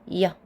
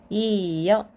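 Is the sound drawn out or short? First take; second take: short; drawn out. First: The two vowels are said quickly as one. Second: The two vowels are said slowly and separately. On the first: "짧게 발음하면" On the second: "이렇게 써놨지만"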